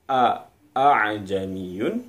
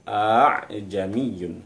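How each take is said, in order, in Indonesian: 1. Vokal pembuka diucapkan sebagai dua bunyi yang terpisah. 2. Vokal pembuka diucapkan menyambung dalam satu tarikan napas. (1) "dari bacaan" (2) "menjadi sekali tarikan"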